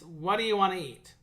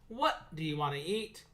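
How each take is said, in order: First: The words run together smoothly into one another. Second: Each word is pronounced separately and distinctly. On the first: The speaker calls it right. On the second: The speaker calls it wrong. "instead of saying"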